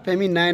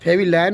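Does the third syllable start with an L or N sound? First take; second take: N sound; L sound. First: The third syllable starts with an N sound. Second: The third syllable starts with an L sound. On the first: The speaker calls it right. "नाइन" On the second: The speaker calls it wrong. "लाइन नहीं होता"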